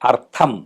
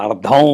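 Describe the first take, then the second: First: The middle consonant is a voiceless aspirated t. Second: The middle consonant is a voiced aspirated d. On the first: The word means purpose. The speaker calls it right. "తా థ రెండో థా పలకాలి" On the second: The word means half. The speaker calls it wrong. "మనవాళ్ళు అర్థం అని అంటారు"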